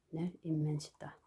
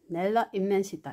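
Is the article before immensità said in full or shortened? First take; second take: shortened; full. First: The article loses its final vowel before the noun. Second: The article keeps its final vowel before the noun. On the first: "앞에 모음을 생략해주고" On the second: "본래는 넬라 인멘시다 이런 뜻이 됩니다"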